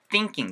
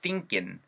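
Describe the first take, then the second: First: It ends with a full ng sound. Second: It ends with a plain n sound. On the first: "thinking 사운드가" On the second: "약간 낀 사운드로 변할 수가 있어요"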